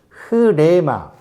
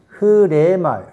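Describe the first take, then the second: First: The word starts with a breathy h sound. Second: The same.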